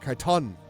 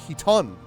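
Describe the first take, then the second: First: The word begins with a K sound. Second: The word begins with an H sound. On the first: The speaker calls it wrong. "No, not a K. There's no K" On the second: The speaker calls it right. "Actually, he. Oh, it is a he"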